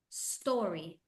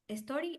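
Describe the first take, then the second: First: The word begins directly with the s sound. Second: A short vowel sound comes before the s. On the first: The speaker calls it right. "The letter is just the letter S. You don't have to open your mouth" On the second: The speaker calls it wrong. "No a story. A story, no"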